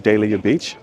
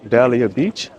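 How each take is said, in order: First: Dahlia is said with a British-style pronunciation. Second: Dahlia is said with a plain American pronunciation.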